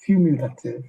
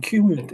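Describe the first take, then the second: First: Cumulative said in full, kyoo-myoo-luh-tiv, firmly and carefully; careful retry. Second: Cumulative cut short as kyum-lat, tongue tripping; stumbled word. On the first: Mentor retrying the word after tripping, careful and deliberate. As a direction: land every syllable of Cumulative. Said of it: "I get my tongue back". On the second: Mentor fumbling cumulative before retrying it, stumbling. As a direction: trip over cumulative, halfway through. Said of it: "I can't say it, I get my tongue back". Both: Shown as a demonstration.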